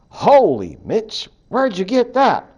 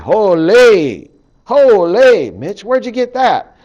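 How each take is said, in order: First: Holy is said plainly, without extra emphasis. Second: Holy is strongly pronounced, Canadian style.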